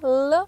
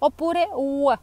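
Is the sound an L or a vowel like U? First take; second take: L; vowel U. First: A clear L with the tongue tip forward. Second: The L becomes a rounded vowel like U. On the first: "come se doveste mordere la punta della lingua"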